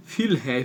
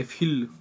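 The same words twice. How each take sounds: First: फिल with a short i; say fill. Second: फिल repeated with a short i; repeat fill. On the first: Teacher giving the example word to students. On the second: Teacher repeating the example word for the class. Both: Shown as a demonstration. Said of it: "आई से किया है".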